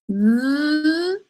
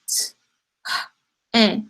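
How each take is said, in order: First: The sounds are blended together into one word. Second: The sounds are split apart into separate pieces. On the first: The speaker calls it right. "Sound it out like this" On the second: The speaker calls it wrong. "This is not the word t, eh. We do not sound it out like that"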